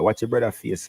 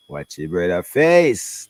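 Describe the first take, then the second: First: Said in the usual way. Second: Watch your brother face slow and louder, each word landed; emphatic repeat. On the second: Real, not acted. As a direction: press it home, slower and firmer.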